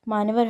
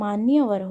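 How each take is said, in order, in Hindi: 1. 'maan' के बाद कोई 'ya' ध्वनि नहीं आती। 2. 'maan' के बाद 'ya' ध्वनि आती है। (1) "अशुद्ध है" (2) "मान्यवर हो जाएगा"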